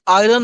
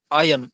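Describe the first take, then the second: First: आयरन said as "ai-ren", with a clear R sound; आयरन as "airən", rolling the r; wrong pronunciation of iron. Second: आयरन said as "ai-en", no R sound; आयरन as "ajən", the r silent; correct pronunciation of iron. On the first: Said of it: "इसे आप pronounce करेंगे आयरन". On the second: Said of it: "इसे आप आयरन नहीं पढ़ेंगे". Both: Shown as a demonstration.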